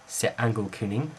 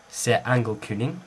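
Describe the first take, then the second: Both takes have the same delivery.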